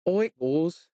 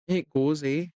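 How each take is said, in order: First: Said in the usual way. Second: Put-on light Canadian accent on "It goes, eh?". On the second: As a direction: tease with a Canadian "eh?". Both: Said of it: "You Canadian accent me today".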